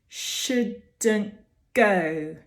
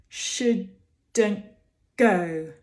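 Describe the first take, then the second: Both takes have the same delivery.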